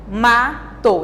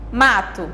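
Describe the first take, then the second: First: MATO split as ma, to with a gap; syllable by syllable. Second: Said in the usual way. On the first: Shown as a demonstration. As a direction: say MATO in two separate beats for a class. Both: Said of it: "palavras com duas sílabas".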